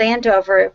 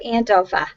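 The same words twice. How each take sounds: First: It is said in a standard American accent. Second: It is said in a Boston accent.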